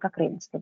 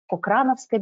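First: The second syllable has an 'ay' diphthong sound. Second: The second syllable has a plain 'a' sound. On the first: "мы транслитерируем таким вот образом" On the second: "можете услышать или прочесть Кокрановская библиотека"

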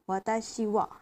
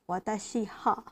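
First: The particle is pronounced with a w sound. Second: The particle is pronounced with an h sound. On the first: The speaker calls it right. "it's not pronounced as ha, but wa" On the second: The speaker calls it wrong. "not watashi ha"

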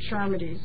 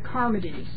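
First: The name begins with a soft ch sound. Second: The name begins with a hard K sound. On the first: "Some people pronounce it" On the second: "in Greek, that's a K. That's a hard sound"

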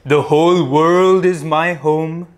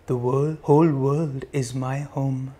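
First: The voice is loud and powerful. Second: The voice is quiet and soft. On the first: "loudly first, powerfully first" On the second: "Softer now"

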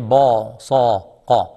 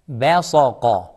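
First: The ba sounds heavy and thick. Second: The ba sounds light, with spread lips. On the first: The speaker calls it wrong. "Don't say ba sa qa" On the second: The speaker calls it right. "Ba, smile on ba"

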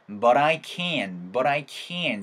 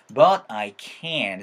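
First: The t in 'but' is a quick flap. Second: The t in 'but' is a clear t. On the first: "T 사운드를 자연스럽게 굴려버리세요" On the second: "but I can't도 괜찮고요"

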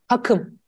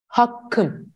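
First: The k sound in the middle is short. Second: The k sound in the middle is doubled. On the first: The speaker calls it wrong. "Hakım mı diyoruz?" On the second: The speaker calls it right. "hakkım şeklinde söyledim"

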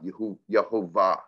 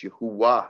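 First: The name is said with a v sound. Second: The name is said with a w sound. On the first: This is the later Yiddish-influenced form. The speaker calls it wrong. "not Yehovah" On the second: This is the older, original form. The speaker calls it right. "so it's Yahuwah"

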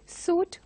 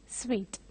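First: The word sounds like 'suit'. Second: The word sounds like 'sweet'. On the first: The speaker calls it wrong. "they go by the spelling and pronounce it as suit" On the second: The speaker calls it right. "this has to be pronounced as suite"

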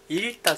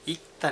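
First: The cluster is pronounced with an l sound. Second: The cluster is pronounced with a k sound. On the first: The speaker calls it wrong. "いったじゃなくて" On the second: The speaker calls it right. "いったになります"

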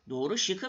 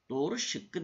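First: The k sound is short and single. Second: The k sound is long and doubled. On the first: The speaker calls it wrong. "Doğru şıkı mı işaretledim dersiniz?" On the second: The speaker calls it right. "Doğru şıkkı deriz"

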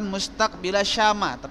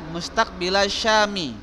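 First: The last word ends with an a vowel. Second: The last word ends with an i vowel. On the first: The speaker calls it wrong. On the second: The speaker calls it right. "rubah mustaqbilasyami"

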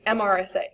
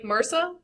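First: It is said letter by letter: M-R-S-A. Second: It is said as one word, like mersa. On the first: The speaker calls it right. "is supposed to be MRSA" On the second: The speaker calls it wrong. "I hate when they turn acronyms into words"

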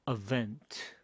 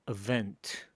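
Both takes have the same delivery.

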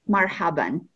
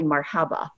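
First: The word ends with an added n sound. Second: The word ends on a plain vowel. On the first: It is the more formal greeting. "with tanween at the end, you'll pronounce it marhaban" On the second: It is the more informal greeting. "If you want to be more informal, you'll just say marhaba"

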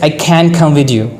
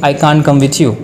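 First: It is said in an American accent. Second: It is said in a British accent. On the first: "But in American, I have to say" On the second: "I can say I can't come with you in British"

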